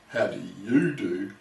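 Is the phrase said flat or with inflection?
inflection. The phrase is said with added inflection. It turns the greeting back on the other person informally.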